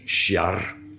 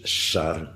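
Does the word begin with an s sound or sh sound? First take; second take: sh; s. First: The word begins with an sh sound. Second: The word begins with a plain s sound. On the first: "soms sjar" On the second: "zonder die j ertussen"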